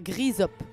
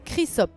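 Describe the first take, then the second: First: The word begins with a hard G sound. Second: The word begins with a hard K sound. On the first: The speaker calls it wrong. "pas Grisop" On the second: The speaker calls it right. "c'est Chrysop"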